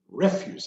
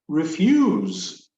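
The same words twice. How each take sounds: First: The stress is on the first syllable. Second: The stress is on the second syllable. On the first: "refuse in this context" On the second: "pronounce it on the second syllable"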